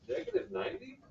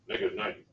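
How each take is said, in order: First: The voice rises at the end, like a question. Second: The voice falls at the end, like a statement. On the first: The speaker sounds unsure of the answer. The speaker calls it wrong. "that sounds like a question" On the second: The speaker sounds sure of the answer. The speaker calls it right.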